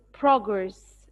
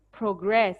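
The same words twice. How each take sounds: First: "progress" as PROG-ress, first syllable strong; noun stress. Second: "progress" as pro-GRESS, second syllable strong; verb stress. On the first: Teacher repeating the noun for class, first-syllable stress. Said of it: "if it's a noun, I'll say it as". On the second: Teacher repeating the verb for class, second-syllable stress. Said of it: "The verb is progress". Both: Shown as a demonstration.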